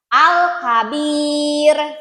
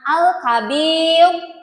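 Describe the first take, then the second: First: The r sound is light and thin. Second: The r sound is heavy and thick. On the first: The speaker calls it right. "dibacanya harus tipis" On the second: The speaker calls it wrong.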